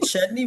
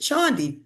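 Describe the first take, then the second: First: The name sounds like the word chutney. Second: The name sounds like Chandi, not chutney. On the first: This is how the namesake's name is said. "instead of us pronouncing it Chutney" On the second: This is how the family says the name. "we pronounce it Chandi"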